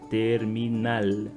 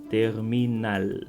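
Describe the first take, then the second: The two takes are said the same way.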